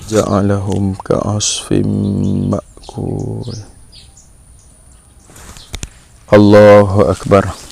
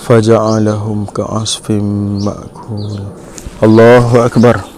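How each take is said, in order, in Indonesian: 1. Ada jeda singkat sebelum Allahu Akbar. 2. Allahu Akbar langsung dilanjutkan tanpa berhenti. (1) "Contoh yang betulnya" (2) "Yang salah kebanyakan orang kita buat"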